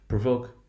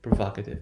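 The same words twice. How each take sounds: First: "provoke" with long stressed "oh". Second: "provocative" with short open "vahk". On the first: Teacher drilling the base word, long value. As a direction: say "provoke" as pro-VOKE. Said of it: "That long value will become short". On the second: Teacher drilling the derived word, short value. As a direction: say "provocative" as pro-VAHK-ative. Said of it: "that will be the short value". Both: Shown as a demonstration.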